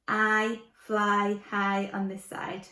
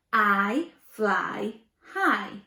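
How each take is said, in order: First: Said in the usual way. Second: Chanted, stretch every word out; slow, emphatic phonics chant. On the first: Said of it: "I on this side". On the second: Shown as a demonstration. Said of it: "we're going to say".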